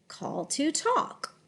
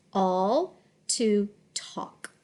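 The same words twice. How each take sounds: First: Slow, connected "Call to talk"; softer, flowing "Call to talk"; smooth phrase reading. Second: Slow, halting "Call to talk"; careful decoding of "Call to talk" with gaps; sounded out. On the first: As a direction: glide through "Call to talk" as one phrase. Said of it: "read smoothly in phrases". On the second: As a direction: split "Call to talk" word by word. Teacher decodes phrase word by word. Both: Shown as a demonstration.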